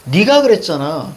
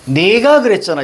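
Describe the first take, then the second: First: "네가" pronounced colloquially as "ni-ga"; 구어체 발음 '니가'. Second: "네가" pronounced as written, "ne-ga"; spelling pronunciation. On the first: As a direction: say "네가" with an "ee" vowel, as in everyday speech. ('네가'를 입말처럼 '니가'로 발음) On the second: ('네가'를 글자 그대로 '네가'로 발음) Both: Shown as a demonstration. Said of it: "이렇게 얘기하는 사람 없지".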